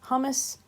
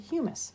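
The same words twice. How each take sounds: First: It sounds like the dip hummus. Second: It does not sound like the dip hummus. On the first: The speaker calls it wrong. "is not how you pronounce this" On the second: The speaker calls it right. "This is actually humus"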